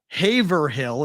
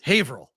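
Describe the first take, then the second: First: The name is pronounced as it is spelled. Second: The name is pronounced the local, non-spelled way. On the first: "is how you spell it" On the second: "It's Haverhill"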